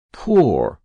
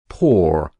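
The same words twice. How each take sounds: First: Poor said higher and louder, falling hard; bitter stress. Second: Poor said low but still loud, falling; sinking repeat. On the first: Boy bitterly facing the truth, stressing Poor. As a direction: land the word Poor like a blow. Repeated word, bitter realization. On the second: Boy repeating the word, voice sinking low. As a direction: let poor sink down heavily. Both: A narrator's reading.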